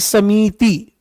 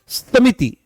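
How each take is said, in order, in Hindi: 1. 'i' स्वर को लंबा खींचा जाता है। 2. 'i' स्वर छोटे और तेज़ हैं। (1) "ना कि समिति" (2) "यह है समिति। क्या है? समिति"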